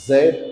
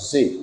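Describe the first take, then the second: First: The letter is said as zed. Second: The letter is said as zee. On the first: This is the British English form. "British ইংলিশে এটিকে জেড বলে উচ্চারণ করা হয়ে থাকে" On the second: This is the American English form. "American ইংলিশে এটিকে জি বলে উচ্চারণ করা হয়"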